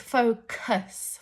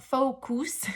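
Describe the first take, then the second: First: The second vowel is a reduced schwa sound. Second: The second vowel is a full u sound. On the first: The speaker calls it right. "it's focus" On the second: The speaker calls it wrong. "That U is not U, it's not focus"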